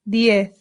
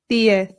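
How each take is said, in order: No difference in how they are said.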